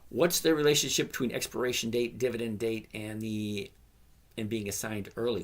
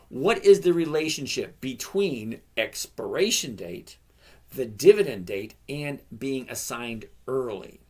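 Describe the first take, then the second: First: It is read at a normal, quicker pace. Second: It is read slowly and deliberately.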